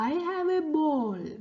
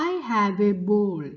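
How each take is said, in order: First: Lightly voiced baby elephant, a bit higher; a hint of a little elephant talking. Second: Said in the usual way. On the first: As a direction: read it as a small cheerful baby elephant. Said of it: "Moti baby elephant പറയാണ്".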